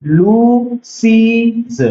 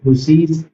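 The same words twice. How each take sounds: First: लूसीज very slow, higher, the final ज़ drawn out; teacher slowly sounding out the plural लूसीज; plural ending stressed. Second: Said in the usual way. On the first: Shown as a demonstration. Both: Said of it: "एक S जोड़ देंगे".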